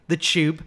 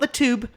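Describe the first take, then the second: First: The word starts with a 'ch' sound. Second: The word starts with a plain 't' sound. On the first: The speaker calls it right. "like C H U B" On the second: The speaker calls it wrong. "not the Tube"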